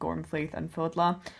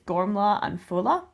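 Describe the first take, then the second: First: The middle consonants of the names are pronounced. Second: The middle consonants of the names are silent. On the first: The speaker calls it wrong. "I am going to be calling them Gormflaith and Fodla. It's not" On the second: The speaker calls it right. "it's Gormla and Fola, I believe"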